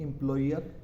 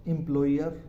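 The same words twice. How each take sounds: First: Said in the usual way. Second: एम्प्लॉयर with a clear oi glide, im-ploi-yer; careful model word. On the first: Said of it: "अगला जो word है उसे हम बोलेंगे". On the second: Shown as a demonstration. Teacher modelling एम्प्लॉयर for students, oi sound clear. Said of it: "उसे हम बोलेंगे एम्प्लॉयर".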